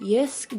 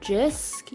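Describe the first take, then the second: First: The name begins with a Y sound. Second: The name begins with a J sound. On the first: This is how other people say it. "People say it's Yisk" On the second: This is the speaker's own way of saying it. "I pronounce it Jisk"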